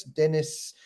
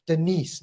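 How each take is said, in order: First: "Dennis" with the first syllable stressed; mispronounced name. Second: "Denise" stressed on the second syllable; corrected name. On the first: Host misreading a viewer's name, stressed as DEN-iss in "Dennis". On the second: Host correcting a viewer's name, "Denise" said duh-NEESE. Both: Real, not acted. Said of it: "not Dennis".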